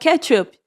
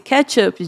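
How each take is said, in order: First: It sounds like the word ketchup. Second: It sounds like the phrase catch up. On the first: It means the tomato sauce. The speaker calls it wrong. "e não catch-up, de ketchup" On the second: It means to reach someone ahead. The speaker calls it right. "eu disse catch-up, de alcançar"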